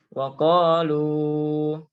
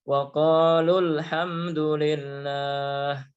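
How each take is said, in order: First: The final vowel is held long before a stop. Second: The final vowel is short, linked to the next word. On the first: The reader stops after this word. "ya panjang dua harokat" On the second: The reader continues without stopping. "Tapi kalau disambung"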